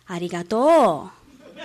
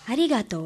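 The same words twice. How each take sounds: First: ありがとう said slowly with the Osaka pitch accent, a little laugh in it. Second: Said in the usual way. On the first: Shown as a demonstration. Student demonstrating how Osakans say ありがとう, slow Osaka accent. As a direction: drawl out ありがとう Osaka-style with a chuckle. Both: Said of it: "大阪弁のアクセントは違います".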